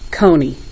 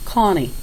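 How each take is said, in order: First: Long O sound followed by an added ee syllable. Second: Short ah sound followed by an added ee syllable. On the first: "Now let me tell you what some people are doing" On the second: "what the O was saying, ah, and then they're adding the E"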